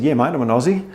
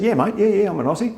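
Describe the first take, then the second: First: Said in the usual way. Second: Higher, hammed-up Australian accent; exaggerated Aussie accent. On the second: Aussie playing up to Americans, exaggerated Australian accent. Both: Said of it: "Let's just bung it on a bit".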